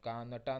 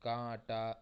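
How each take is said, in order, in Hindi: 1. पूरा n व्यंजन बोला जाता है। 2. स्वर अनुनासिक है, पूरा n नहीं। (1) "कानटा नहीं कहेंगे" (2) "ये नून साइलेंट रहेगा"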